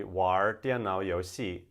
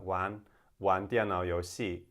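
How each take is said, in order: First: "玩" with an r-coloured Beijing ending; Beijing accent, louder, curl the r on "玩"; northern accent. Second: "玩" with no r, southern style; southern Chinese accent, plain n ending on "玩"; southern China accent. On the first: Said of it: "The verb that you may have learnt already". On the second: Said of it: "in southern China it'd be more like". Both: Shown as a demonstration.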